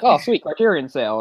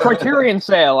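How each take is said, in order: First: Said in the usual way. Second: Drawn out, higher and louder; excited sale announcement. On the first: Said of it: "I'm like". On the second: Retold or imitated. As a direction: hype it up like a big sale. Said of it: "You guys are like".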